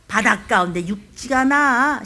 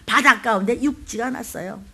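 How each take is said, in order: First: 나 drawn out at the end, slow; stress on 나. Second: Said in the usual way. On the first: Shown as a demonstration. Preacher leading the church to say it, stressing 나. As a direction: lean slowly into the final 나. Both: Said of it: "한번 해볼까요?".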